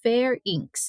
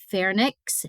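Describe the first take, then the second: First: The n sound comes after the middle vowel. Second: The n sound comes before the middle vowel. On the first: The speaker calls it right. "but it is pharynx" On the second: The speaker calls it wrong. "A lot of people pronounce it pharynx and put the N before the Y"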